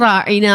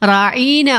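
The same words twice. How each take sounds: First: The word is said with short, plain vowels. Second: A vowel in the word is drawn out long.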